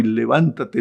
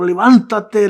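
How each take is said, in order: First: Said in the usual way. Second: Levántate called out higher and louder; rousing command. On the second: Acted. Paul commanding the reader to stand, higher and louder. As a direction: shout levántate as a rallying call. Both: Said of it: "lo que Pablo te dice hoy".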